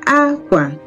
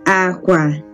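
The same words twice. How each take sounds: First: The pitch starts high, then goes low. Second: Both syllables are on a low pitch. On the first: It means cloth. "High, low" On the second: It means bed. "it's low. That means it is low, low"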